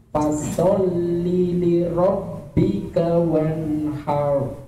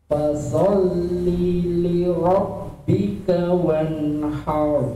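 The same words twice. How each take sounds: No difference in how they are said.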